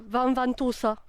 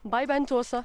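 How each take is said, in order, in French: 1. Le nom commence par un son V. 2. Le nom commence par un son B. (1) "les gens qui sont pas d'ici, ils vont te dire"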